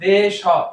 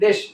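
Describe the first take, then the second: First: The word is broken into two separate parts. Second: The word is said together as one unit. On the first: The speaker calls it wrong. "যদি এভাবে ভাঙি দেশ হ, উচ্চারণ বিকৃত হয়ে যাবে" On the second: The speaker calls it right. "আমি যদি একসাথে বলি দেশ"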